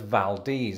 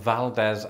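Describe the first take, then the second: First: The last syllable sounds like 'deez'. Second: The last syllable does not sound like 'deez'. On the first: The speaker calls it right. "locals in fact pronounce it as Valdez, as in Valdez nuts" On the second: The speaker calls it wrong. "At least that's how I used to pronounce it before I heard it"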